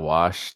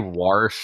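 First: There is no r sound before the sh. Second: An r sound is added before the sh. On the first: The speaker calls it right. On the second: The speaker calls it wrong.

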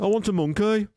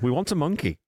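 First: It is said in a Birmingham accent. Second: It is said in the speaker's ordinary accent.

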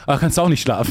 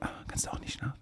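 First: It is said at full, loud volume. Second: It is said in a quiet night voice.

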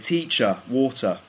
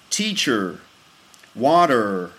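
First: The words end with no R sound in a British accent. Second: The words end with a rounded R sound in an American accent. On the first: "We'd say" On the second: "So would be like in American English"

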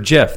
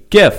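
First: It starts with a soft j sound. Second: It starts with a hard g sound. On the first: The speaker calls it wrong. "we already have a word for GIF. That means peanut butter" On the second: The speaker calls it right. "hard G"

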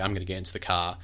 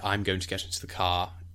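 First: It is said in a New Zealand accent. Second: It is said in an RP accent. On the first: "So we'd say" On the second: "An RP, they would say"

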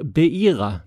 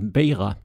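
First: The i is said as a separate vowel. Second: The i is said like a y glide. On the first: The speaker calls it wrong. "som jag sa" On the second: The speaker calls it right. "Iet ska uttalas som ett J"

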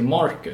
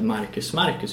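First: The name is said with an American pronunciation. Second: The name is said with a Swedish pronunciation. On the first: "utan de säger Marcus" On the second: "amerikaner uttalar inte Marcus"

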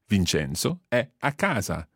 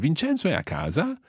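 First: The voice falls at the end. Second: The voice rises at the end.

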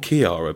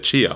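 First: The name starts with a hard k sound. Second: The name starts with a ch sound. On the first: This is how the person herself is called. "She's called Chiara" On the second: This is how someone else says the name. "he calls her Chiara. So he kind of is very much embraces the ch. It's no hard K's for him"

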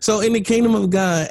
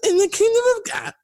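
First: It is said in his normal voice. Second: It is said in a preacher's voice.

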